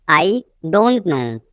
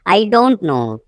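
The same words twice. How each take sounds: First: Teacher's slow split before "don't"; slow repeat. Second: Said in the usual way. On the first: Shown as a demonstration. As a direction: pause after "I". Teacher repeats sentence slowly.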